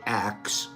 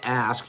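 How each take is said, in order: First: The k sound comes before the s. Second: The s sound comes before the k. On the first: "we say axe" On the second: "instead of saying ask"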